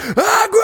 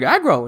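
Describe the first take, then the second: First: The call sounds panicked and urgent. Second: The call sounds cheerful and relaxed.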